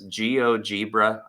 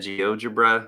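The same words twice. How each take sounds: First: The ending is said to rhyme with zebra. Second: The ending is said like the end of algebra. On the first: The speaker calls it wrong. "my brain wants to pronounce this GeoGebra ... it wants to make it sound like zebra" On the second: The speaker calls it right. "that's most likely how you say it"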